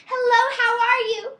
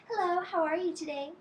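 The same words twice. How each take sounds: First: A big high shouted hello; loud yell. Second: A gentle, pleasant hello; nice greeting. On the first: Showing a child the wrong way to greet, loud high yell. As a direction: holler it across the room, much higher and louder. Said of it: "yell across the room and say". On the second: Showing a child the polite princess greeting, gentle and sweet. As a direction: greet your friends sweetly, no yelling. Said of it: "We wave like this and we say". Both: Shown as a demonstration.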